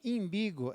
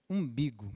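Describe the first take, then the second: First: The word begins with an 'ee' vowel sound. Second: The word begins with an 'oo' vowel sound.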